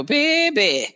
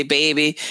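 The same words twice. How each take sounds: First: Put-on high, drawn-out New Orleans "Baby"; "Baby" sung up high in a New Orleans accent. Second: Said in the usual way. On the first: Shown as a demonstration. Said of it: "my accent don't come out until". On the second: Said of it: "when they hear me say".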